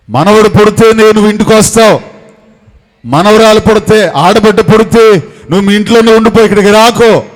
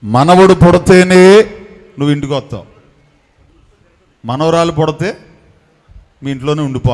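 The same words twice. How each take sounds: First: Hot-tempered father's stern warning, retold; short-tempered father. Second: Said in the usual way. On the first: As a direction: voice the father laying down the law, firm. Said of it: "మా నాన్నగారికి ముక్కు మీద కోపం". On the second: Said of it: "మా నాన్నగారు అన్నారంట".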